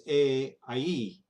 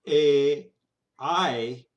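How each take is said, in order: First: A and I gliding into a clear ee; emphasis on the E. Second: Loud drawn-out A, I weighted on the first vowel; wrong diphthong emphasis. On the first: Teacher correcting the diphthong, stress on the closing E. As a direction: lean on the final ee of A, I. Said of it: "The emphasis on the E". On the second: Teacher showing what the diphthong is not, front-weighted vowels. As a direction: hold A and I open, no strong ee glide. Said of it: "this diphthong is not". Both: Shown as a demonstration.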